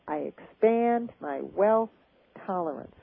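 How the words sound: It is said with enthusiasm and energy. The speaker calls it right. "you want to say it with enthusiasm"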